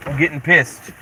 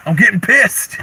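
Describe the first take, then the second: First: Said in the usual way. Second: Higher mock-angry whine. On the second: Shown as a demonstration. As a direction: whine it as fake anger.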